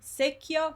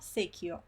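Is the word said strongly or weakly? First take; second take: strongly; weakly. First: The word is said with strong force. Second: The word is said with weaker force.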